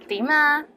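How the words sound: It is said in a friendly tone. How are you? The speaker calls it right. "say it with a nice voice"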